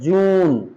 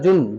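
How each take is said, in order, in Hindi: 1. स्वर लंबा और खिंचा हुआ है। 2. स्वर छोटा और झटके से कटा हुआ है। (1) "खींचना पड़ता है" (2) "जुन जून थोड़ी ना होता है"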